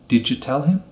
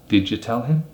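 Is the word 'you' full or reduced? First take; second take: reduced; reduced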